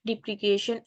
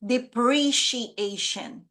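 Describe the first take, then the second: First: "depreciation" said as dee-pree-KAY-shun; "depreciation" with a hard k in place of "shee"; mispronounced. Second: "depreciation" said slowly as dee-pree-shee-AY-shun; "depreciation" with a clear "shee" in the middle, not "kay"; correct pronunciation. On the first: Real, not acted. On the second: Shown as a demonstration. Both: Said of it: "this word is pronounced as depreciation".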